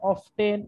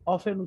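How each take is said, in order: First: The t sound is pronounced. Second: The t sound is silent. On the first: "কখনো অফটেন উচ্চারণ করা যাবে না" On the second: "অফেন উচ্চারণ করতে হবে"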